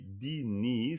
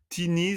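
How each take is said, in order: First: The word begins with a d sound. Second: The word begins with a t sound. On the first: The speaker calls it right. "c'est di" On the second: The speaker calls it wrong. "c'est pas Tini"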